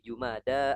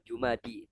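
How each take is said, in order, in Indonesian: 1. Nama itu berakhir dengan bunyi vokal 'ah'. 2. Nama itu berakhir dengan bunyi vokal 'ee'. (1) "tapi Jumada al-ula" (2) "bukan Jumadi"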